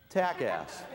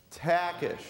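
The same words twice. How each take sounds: First: "Takass" as TACK-ass, ending in "ass" instead of "ish"; mispronounced surname. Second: "Takish" as TACK-ish, for repeating; correct pronunciation. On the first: Retold or imitated. Retelling the introducer's blunder, "Takass" ending in a plain "ass". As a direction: botch the name as "Takass", second syllable "ass". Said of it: "Why did he call me Takass?". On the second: Shown as a demonstration. Speaker has audience say it with him, "Takish" with a clear "ish". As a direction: lead the room in "Takish", ending in "ish". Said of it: "Say that with me".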